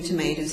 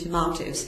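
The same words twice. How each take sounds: First: It is said with an American pronunciation. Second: It is said with a British pronunciation. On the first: "the American pronunciation" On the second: "very much attached to the British pronunciation"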